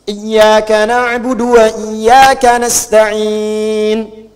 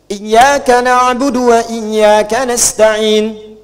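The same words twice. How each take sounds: First: The final vowel is stretched longer, four counts. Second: The final vowel is held briefly, two counts. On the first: "Bisa empat harakat mutawassit" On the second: "Kalau mau pendek, hadar"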